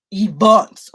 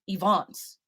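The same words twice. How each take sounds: First: Events said much louder with a rising pitch; stress on events. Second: Said in the usual way. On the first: Shown as a demonstration. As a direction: punch the word events hard and let it climb.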